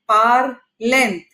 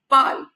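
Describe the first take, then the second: First: The final ending is sounded aloud after 'parl'. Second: The final ending is silent after 'parl'. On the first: The speaker calls it wrong. "It is not parlent. It's no word in French" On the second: The speaker calls it right. "It's only pal. We have to pronounce it till the last vowel in the word"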